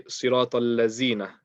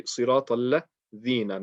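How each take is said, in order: First: "lazina" with a buzzing z in place of dhal; mispronounced dhal as za. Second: "ladhina" with dh as in "this", tongue touching the top teeth; correct dhal. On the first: Teacher showing learners a common recitation mistake, "lazina" mispronounced with z. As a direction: say "lazina" with a z sound where the th of "this" belongs. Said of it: "mispronouncing the dhal and turning into a za". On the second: Teacher correcting learners' recitation, "ladhina" with a clear dhal. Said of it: "only touching the top teeth with the letter dhal". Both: Shown as a demonstration.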